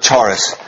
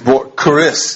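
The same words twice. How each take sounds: First: It is read as the English spelling suggests. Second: It is not read as the English spelling suggests. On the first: The speaker calls it wrong. "It's not charis as it looks there" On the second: The speaker calls it right. "It's charis"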